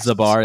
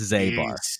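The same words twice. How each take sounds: First: The A vowel is short. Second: The A vowel is long. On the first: The speaker calls it wrong. "It's not Zabar" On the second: The speaker calls it right. "With a long A"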